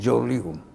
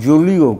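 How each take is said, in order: First: The first vowel is an 'oh' sound. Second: The first vowel is an 'oo' sound. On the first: The speaker calls it right. "উচ্চারণ হবে জোলিও" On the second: The speaker calls it wrong. "বলা হয়েছে জুলিও কুরি"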